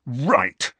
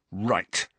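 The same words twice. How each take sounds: First: Sharper, decided angry word; furious. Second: Contained fury. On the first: James resolves to take revenge, furious. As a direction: let the anger out on one word. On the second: James absorbs criticism from his friend, quietly furious. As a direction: hold the anger in on one word. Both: A narrator's reading. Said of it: "who looked furious now".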